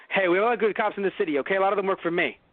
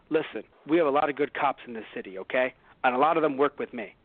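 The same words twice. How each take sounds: First: Rushed mumble. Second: Said in the usual way. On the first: Retold or imitated. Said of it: "He was saying". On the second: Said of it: "let's say he's trying to say".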